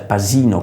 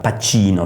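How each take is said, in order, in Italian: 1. La consonante centrale è un suono 's'. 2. La consonante centrale è un suono 'ch'. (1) "con la S veneta si pronuncia" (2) "si scrive"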